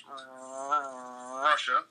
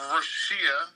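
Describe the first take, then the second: First: Said in the usual way. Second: "Russia" drawn out with an extra syllable, roo-SHEE-a; mispronounced Russia. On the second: Pretend. Podcaster playfully misnames the country to co-host, "Russia" as ruh-SHEE-uh. Jokey mispronunciation, then corrected.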